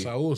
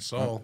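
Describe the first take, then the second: First: The name is said with a Hebrew-sounding pronunciation. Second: The name is said with an English-sounding pronunciation. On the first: "Saul sounds more Hebrew" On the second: "than Saul"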